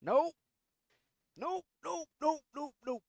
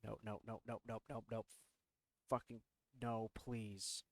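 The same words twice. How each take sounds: First: High, loud frantic nopes; panicked nope. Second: Soft, low muttered nopes; quiet nope. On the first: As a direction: yelp it in panic. Closet door opens. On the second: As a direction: mutter under your breath in dread. Dread at noise from closet. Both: Real, not acted.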